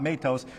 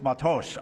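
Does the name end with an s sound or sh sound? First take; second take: s sound; sh sound. First: The name ends with a plain s sound. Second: The name ends with an sh sound. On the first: The speaker calls it wrong. "It's not Matos" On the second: The speaker calls it right. "the S H at the end"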